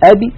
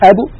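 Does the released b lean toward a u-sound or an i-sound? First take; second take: i-sound; u-sound. First: The released b leans toward an i-sound. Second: The released b leans toward a u-sound. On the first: "مالت الباء إلى الكسر" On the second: "إذا قلنا أب وضممنا الشفتين صارت الباء مائلة إلى الضم"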